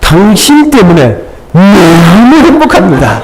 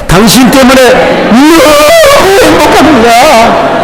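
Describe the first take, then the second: First: 너무 is not specially stressed. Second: 너무 is strongly stressed.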